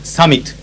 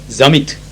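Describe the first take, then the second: First: It is said in a neutral English accent. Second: It is said with a German accent.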